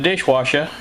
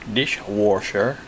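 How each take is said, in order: First: It sounds like 'wash', without an R. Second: It sounds like 'warsh', with an R. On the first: The speaker calls it right. "this sounds funny when you say it that way" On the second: The speaker calls it wrong. "I put an R in wash"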